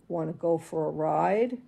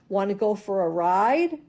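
First: The question has a gloomy, foreboding melody. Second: The question has a happy, upbeat melody. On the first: The trip is to the vet. "the bad notes say" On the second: The trip is a fun ride. "the good notes say"

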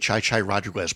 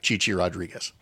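First: The first name has an 'eye' vowel sound. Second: The first name has no 'eye' vowel sound. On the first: The speaker calls it wrong. "please don't say Chai Chai Rodriguez" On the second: The speaker calls it right. "But yeah"

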